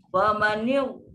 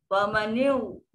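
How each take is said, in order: No difference in how they are said.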